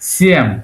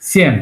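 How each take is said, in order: First: The word is said with a softened sound. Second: The word is said plainly, as spelled. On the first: "একটু এইভাবে উচ্চারণ করতে হবে" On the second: "actually same লিখে ফেলছে"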